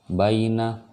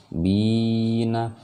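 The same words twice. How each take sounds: First: "baina" with a quick, unstretched bai glide; short diphthong. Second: "Bina" with a long, held i on a raised chanting pitch; long vowel. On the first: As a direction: chant "baina" higher, without lengthening the "bai". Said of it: "ini enggak". ("baina" dibaca bai, tidak dipanjangkan) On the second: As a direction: stretch "Bi" out before a short "na". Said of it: "Ini dipanjangkan". ("Bina" dengan bi dipanjangkan) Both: Shown as a demonstration.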